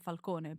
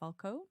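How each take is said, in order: First: The name is said in a non-American way. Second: The name is said in an American way. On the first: "I would say Falcone" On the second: "in America you say Falco"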